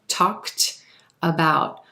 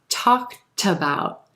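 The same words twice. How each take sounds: First: The two words are said separately. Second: The T sound links into the next word. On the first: "With two distinct words, we have a k, kt ending" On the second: "With linking"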